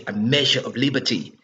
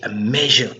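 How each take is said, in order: First: Said in the usual way. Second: A measure breathed out unvoiced; whispered word. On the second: Real, not acted. Commentator searching for his word, whispering it.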